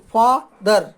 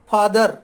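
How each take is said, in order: First: father broken in two, फा, pause, दर; pause between syllables. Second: Said in the usual way. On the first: Shown as a demonstration. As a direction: say father one syllable at a time, stopping after फा. (Father को फा पर रुककर, फिर दर बोलें) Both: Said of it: "बीच में रुकना पड़ता है".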